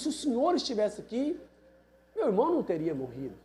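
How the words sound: It is said in a harsh, scolding tone. It is a reproach. "num tom asperoso, né, de bronca"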